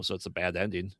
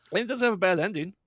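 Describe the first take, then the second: First: Said in the usual way. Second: Higher, louder and fast, pushing hard on have; emphatic. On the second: Real, not acted. Reviewer insisting to co-host the film's ending isn't bad, emphatic and fast. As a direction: blurt it out in a rush. Correcting herself about the ending.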